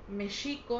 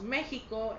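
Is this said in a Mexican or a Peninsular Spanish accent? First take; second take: Peninsular; Mexican. First: It is said in a Peninsular Spanish accent. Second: It is said in a Mexican Spanish accent. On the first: This is how it is said in Spain. "ellos dicen México" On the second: This is how it is said in Mexico. "nosotros decimos México"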